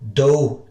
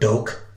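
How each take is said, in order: First: It ends in an open 'oo' vowel. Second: It ends in a hard 'k' sound. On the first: "it's no do" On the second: "it's no spelt with a K"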